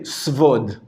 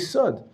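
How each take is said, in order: First: A v sound follows the s. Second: No v sound follows the s. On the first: The speaker calls it wrong. "you don't say svod" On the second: The speaker calls it right. "You say sod"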